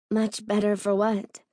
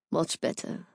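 First: Said in the usual way. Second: Low breathy murmur; hushed, satisfied. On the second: A narrator's reading. Owen pleased to have her alone, hushed.

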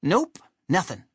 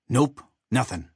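First: Higher-pitched character voice; high cartoon sidekick; Chuck. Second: Lightly voiced character reply; a hint of a character voice, matter-of-fact; Bomb. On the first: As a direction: answer in a light, raised voice. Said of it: "Chuck, who hadn't quite gotten". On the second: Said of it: "Bomb replied". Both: A narrator's reading.

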